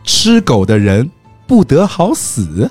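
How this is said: It is said as a questioning line.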